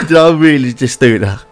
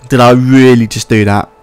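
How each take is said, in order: First: Laughing through a cough; disbelieving laugh, half coughing; laughing in disbelief. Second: Said in the usual way. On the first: Real, not acted.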